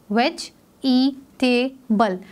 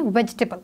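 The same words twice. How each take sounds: First: Slow "वेज, ई, टे, बल", each part separate; split into four parts. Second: Said in the usual way. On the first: Shown as a demonstration. Teacher dividing vegetable for pupils, in four separate parts. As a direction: sound out every part of "वेज ई टेबल", the silent E included. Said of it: "इसको four parts में divide किया". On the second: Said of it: "हम इसको pronounce करते वक्त".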